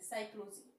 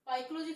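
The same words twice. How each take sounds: First: It begins with an 's' sound. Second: It begins with a 'p' sound. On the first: The speaker calls it right. "हम पढ़ते क्या है, एस से" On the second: The speaker calls it wrong. "थोड़ा ना पढ़ते हैं"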